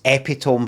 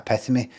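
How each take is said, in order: First: The ending sounds like 'tome', one syllable. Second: The ending sounds like 'tuh-mee', two syllables. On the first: This is the first misreading in the head. The speaker calls it wrong. "It always goes in as epitome first" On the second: This is the corrected reading. The speaker calls it right. "then I change it to epitome"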